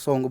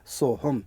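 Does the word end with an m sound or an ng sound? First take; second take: ng; m. First: The word ends with an ng sound. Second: The word ends with an m sound. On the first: The word is being chanted repeatedly, run into the next one. "बार बार बोलेंगे तो सोहंग सोहंग सोहंग बोलना पड़ेगा" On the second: The word is said on its own. "शुद्ध शब्द है सोहम"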